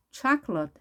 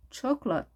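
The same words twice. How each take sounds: First: "초콜릿" as CHAHK-lut, open 'ah', middle vowel dropped; first variant. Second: "초콜릿" as CHAWK-lut, rounded first vowel; second variant. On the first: Teacher offering one of two pronunciations, "초콜릿" with open 'ah'. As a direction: say "초콜릿" in two syllables with 'chah'. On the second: Teacher offering the other pronunciation, "초콜릿" with rounded 'aw'. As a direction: say "초콜릿" in two syllables with 'chaw'. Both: Shown as a demonstration. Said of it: "두 가지 발음 가능합니다".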